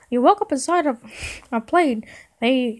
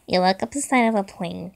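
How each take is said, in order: First: It is read in a Mickey Mouse voice. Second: It is read in his normal voice.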